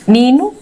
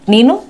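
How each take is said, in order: No difference in how they are said.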